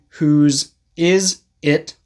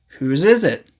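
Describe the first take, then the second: First: The words are said separately. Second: Final consonants link into the following vowels. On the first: "Instead of saying" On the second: "use this to connect the words"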